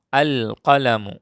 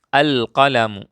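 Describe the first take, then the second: First: The l of the article is clearly pronounced. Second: The same.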